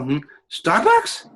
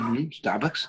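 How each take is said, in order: First: The surprise sounds strong and exaggerated. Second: The surprise sounds mild and neutral.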